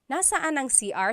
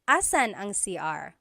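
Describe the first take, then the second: First: The first word is said in full, three syllables. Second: The first word is shortened, dropping its first syllable. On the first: "technically, just so you know, it should be nasaan" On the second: "a short way to say it"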